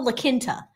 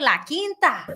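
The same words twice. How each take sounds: First: It is said with a Boston accent. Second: It is said with a Texas accent. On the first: "I was giving it a Boston accent" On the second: "This is how we say it in Texas"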